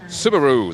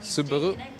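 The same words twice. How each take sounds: First: It is said with an American pronunciation. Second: It is said with a Japanese pronunciation. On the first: "the U S pronunciation is more like Subaru, like kangaroo" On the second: "In the Japanese original pronunciation"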